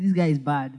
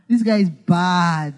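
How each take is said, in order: First: It is said with a disapproving, negative tone. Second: It is said with an admiring, positive tone. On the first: The person is bad in a negative sense. "Bad before used to be a negative word" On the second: The person is impressive in a good sense. "It's now a good thing. Oh, it's now intonation"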